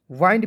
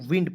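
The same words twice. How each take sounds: First: वाइंड with a long "aai", "waaind"; wrong pronunciation. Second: विंड with a short "i", "wind"; correct pronunciation. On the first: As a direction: stretch the vowel in वाइंड to "aai". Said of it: "वाइंड भी बहुत लोग पढ़ लेता है". (गलत उच्चारण: वाइंड) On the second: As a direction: keep the vowel in विंड short. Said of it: "इसे पढ़ना है दोस्तों विंड". (सही उच्चारण: विंड) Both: Shown as a demonstration.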